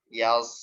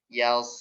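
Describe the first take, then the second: No difference in how they are said.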